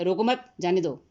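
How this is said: There is a pause right after 'mat'.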